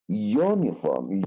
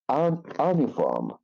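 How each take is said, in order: First: It begins with a 'you' consonant sound. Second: It begins with a short 'uh' vowel sound. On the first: The speaker calls it right. "We pronounce here you as a consonant sound" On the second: The speaker calls it wrong. "we not use it uh, like un- uniform"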